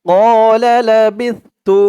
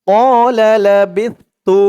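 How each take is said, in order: Both takes have the same delivery.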